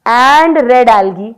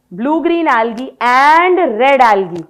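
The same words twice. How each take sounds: First: And red algae with and hit louder, very slowly; stress on and. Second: Slow, even dictation of a note. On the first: Teacher repeating the note for students, leaning on and. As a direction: lean hard on and as you repeat. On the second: Teacher dictating notes for students to copy, slow and even. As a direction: spell it out slowly for students to copy. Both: Shown as a demonstration. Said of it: "bracket में लिखो".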